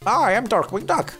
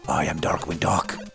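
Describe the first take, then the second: First: It is said without a Batman-style voice. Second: It is said in a Batman-style voice.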